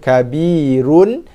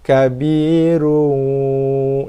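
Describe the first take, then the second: First: The final n is pronounced clearly. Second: The final n becomes a long nasal hum. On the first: "Asalnya dibaca dengan kabirun dengan nun" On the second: "dengung panjang"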